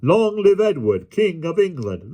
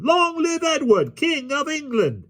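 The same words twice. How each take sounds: First: High, rousing call; leading a cheer. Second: Very high, drawn-out cheer; thunderous crowd response. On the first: Ruffler leads the crew in saluting the king, rousing high call. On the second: Motley crew roars back to the ruffler, very high slow cheer. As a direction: answer as a whole cheering crowd, voice pitched way up. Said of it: "The response came with such a thundergust". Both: A narrator's reading.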